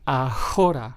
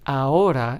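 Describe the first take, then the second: First: An h sound is heard in the word. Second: No h sound is heard in the word. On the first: The speaker calls it wrong. "and not ahora" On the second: The speaker calls it right. "we still make the H silent"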